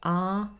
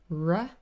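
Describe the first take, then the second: First: The r sound has a British accent. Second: The r sound has an American accent. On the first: "like a Brit would do, or R" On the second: "Americans would probably say"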